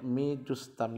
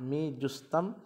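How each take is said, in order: First: जुस्तम said with a clear short u after the j; मी जुस्तम, j with pesh, jus-tam; pron with u on jeem. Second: Said in the usual way. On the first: Shown as a demonstration. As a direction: stress the u sound in जुस्तम. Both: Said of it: "जीम के ऊपर पेश पढ़ना ज़रूरी है".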